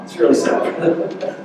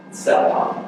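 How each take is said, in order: First: Slow, drawn-out mock lament over "really"; mock sad. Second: Said in the usual way. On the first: Joking about his own deafness, in mock sadness. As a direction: ham up the pity, stretching "really".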